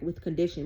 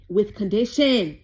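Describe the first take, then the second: First: Said in the usual way. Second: "with condition" drawn out slowly and loudly; loud, slow stress on "with condition"; emphatic repeat. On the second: Real, not acted. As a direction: hammer home "with condition", stretching each word.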